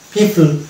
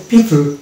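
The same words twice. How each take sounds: Both takes have the same delivery.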